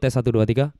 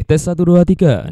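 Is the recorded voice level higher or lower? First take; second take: lower; higher. First: The voice is recorded at a lower level. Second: The voice is recorded at a higher level. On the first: "Kayak gitu suara yang dihasilkan oleh mic ini" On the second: "Memang mic ini lebih sensitif"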